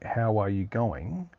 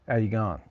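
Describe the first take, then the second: First: Every word is said fully and carefully. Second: The words run together in broad casual slang. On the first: "in like correct English" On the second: "that sort of rough slang ocarism kind of speech"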